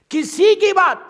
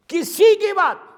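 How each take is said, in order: Both takes have the same delivery.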